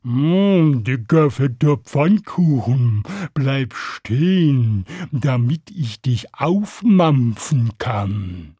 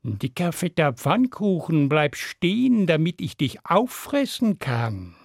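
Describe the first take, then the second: First: Long-drawn mooing cow voice; slow cow. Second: Understated coaxing cat voice; lightly voiced cat eyeing prey; sly cat. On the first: Cow in the meadow to passing pancake, slow mooing. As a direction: stretch every word like a heavy cow. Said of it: "die sah den Pfannkuchen kommen und sagte". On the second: Cat on the wall to passing pancake, understated menace. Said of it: "Die sah ihn kommen und sagte". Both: A narrator's reading.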